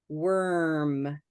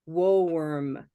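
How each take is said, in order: First: The vowel is like the one in purple. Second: The vowel is like the one in rose. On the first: The speaker calls it right. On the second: The speaker calls it wrong.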